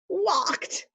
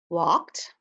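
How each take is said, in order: First: It is said in a happy voice. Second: It is said in a neutral voice.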